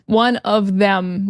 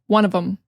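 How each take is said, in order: First: The phrase is said slowly and carefully. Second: The phrase is said fast and run together.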